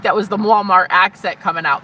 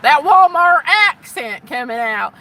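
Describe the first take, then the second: First: Said in the usual way. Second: Loud, high, drawn-out Walmart accent; exaggerated Walmart accent, pitched up and stretched. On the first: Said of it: "I think that was the Walmart accent". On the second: Shown as a demonstration. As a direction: ham up a slow Walmart accent. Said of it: "I think that was the Walmart accent coming out".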